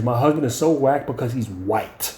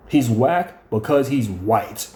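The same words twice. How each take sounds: First: Said in the usual way. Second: Slow repeat. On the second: Retold or imitated. Repeating the wife's jab about her husband, slowly. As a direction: spell it out slowly, word by word.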